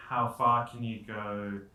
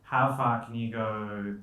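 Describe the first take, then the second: No difference in how they are said.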